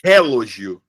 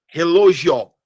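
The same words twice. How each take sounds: First: "relógio" with the first syllable "re" punched, the rest falling away; misplaced stress on the opening syllable of "relógio"; stress shifted to first syllable. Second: "relógio" with the stress moved off the first syllable onto "lógio", drawn out; "relógio" said slowly, weight after "re"; stress moved along. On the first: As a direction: hit RE hard in "relógio", wrongly stressed up front. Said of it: "se eu mudar o local do acento". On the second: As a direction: lean loudly on the later part of "relógio". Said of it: "se eu mudar o lugar do acento".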